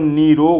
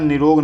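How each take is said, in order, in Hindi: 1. पहला स्वर दीर्घ है। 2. पहला स्वर ह्रस्व है। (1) "निरोग होता है" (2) "निरोग नहीं होता"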